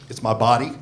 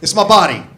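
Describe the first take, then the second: First: Said in the usual way. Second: It's my body with body punched loud and falling; punchline, louder. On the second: Shown as a demonstration. Comic announcing his problem with body stressed loudly. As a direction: hit body hard and let it drop. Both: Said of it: "I ain't got there yet".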